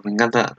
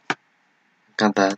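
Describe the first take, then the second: First: Said in the usual way. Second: "Me encanta" stretched slow and soft, savouring "encanta"; drawn-out delight. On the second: Shown as a demonstration. Gushing over the anime girl, "Me encanta" slow and soft. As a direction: linger on "encanta" like a happy sigh.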